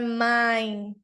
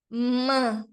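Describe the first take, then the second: First: The vowel is an 'ai' diphthong. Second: The vowel is a nasal 'an' sound. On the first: The speaker calls it wrong. "não é mine" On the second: The speaker calls it right. "Então é man"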